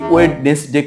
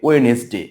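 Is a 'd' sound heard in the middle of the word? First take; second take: yes; no. First: A 'd' sound is heard after 'wed'. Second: No 'd' sound is heard after 'we'. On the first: The speaker calls it wrong. "এটার উচ্চারণ অনেকেই ওয়েডনেসডে করে থাকে" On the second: The speaker calls it right. "এখানে ডি এর উচ্চারণ হবে না"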